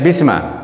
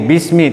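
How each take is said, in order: First: The word ends with an a vowel. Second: The word ends with an i vowel. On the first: The speaker calls it wrong. "tidak bisma" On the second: The speaker calls it right. "Jadi bismi"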